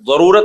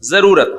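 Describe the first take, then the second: First: The z is an emphatic Arabic ḍād sound. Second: The z is a plain, light z sound. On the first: The speaker calls it wrong. "जरूरत नहीं होता" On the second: The speaker calls it right. "क्या होता है? जरूरत।"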